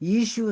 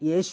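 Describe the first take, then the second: First: The name begins with an 'ee' sound. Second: The name begins with a 'ye' sound. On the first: This is the Hindi way of saying it. "ഹിന്ദിയിലും ... ഈശു എന്ന് പറയുന്നു" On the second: This is the Malayalam way of saying it. "മലയാളത്തിൽ യേശു എന്ന് പറയുന്നു"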